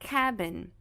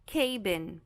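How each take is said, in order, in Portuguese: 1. A primeira vogal tem um som de A curto. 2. A primeira vogal tem um som de A longo. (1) "Mas é cabin" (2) "se ela tivesse o som longo, ela seria cabin"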